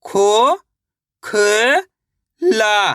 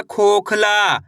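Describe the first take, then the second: First: खो, ख, ला stretched with long gaps; syllable by syllable. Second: Said in the usual way. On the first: Shown as a demonstration. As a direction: sound out खो, ख, ला piece by piece. (खो, ख, ला एक-एक करके) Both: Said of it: "तो मिलके बन जाएगा".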